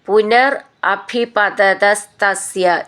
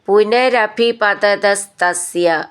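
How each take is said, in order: First: The two words are said as separate words. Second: The two words run together as one word.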